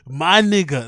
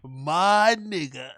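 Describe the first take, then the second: First: Voicing Brian. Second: Very slow, stretched imitation; voicing Brian, drawn out. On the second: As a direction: drag the words out slowly. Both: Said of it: "That's what he wants to say".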